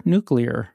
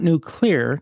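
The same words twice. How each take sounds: First: NUCLEAR as NOO-klee-er, lower and falling; correct pronunciation. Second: NUCLEAR split as nu-CLEAR; wrong pronunciation. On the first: Showing the host the fix, correct pronunciation. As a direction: run nuclear together, stress up front. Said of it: "Nuclear is correct". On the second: Showing the host the mistake, wrong pronunciation. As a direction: punch clear as its own word in nuclear. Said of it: "nuclear is also wrong". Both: Shown as a demonstration.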